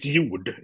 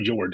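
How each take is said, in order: First: The name is said with Swedish pronunciation. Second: The name is said with English pronunciation. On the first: "It's Jord if you want to talk Swedish" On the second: "So Jord is good"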